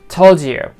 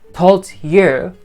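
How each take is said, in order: First: The d and y sounds blend into 'j'. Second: The d and y sounds are kept separate. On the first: The speaker calls it right. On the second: The speaker calls it wrong.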